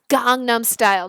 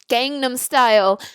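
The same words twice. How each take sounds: First: The first vowel is an open 'ah' sound. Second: The first vowel is the 'a' of cat. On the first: The speaker calls it right. "Just like it's Gangnam style" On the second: The speaker calls it wrong. "not Gangnam style"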